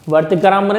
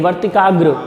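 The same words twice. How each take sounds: First: वर्तिकाग्र garbled into "vartikaram"; the wrong ending, "-ram" for "-gra", on वर्तिकाग्र; mispronounced word. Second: Said in the usual way. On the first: Shown as a demonstration. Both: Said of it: "वर्तिकाग्र नहीं".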